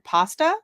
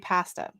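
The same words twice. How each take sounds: First: It is said without a Canadian accent. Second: It is said with a Canadian accent. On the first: This is how the speaker always said it. "I always said pasta" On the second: This is how people say it locally. "Here they say pasta"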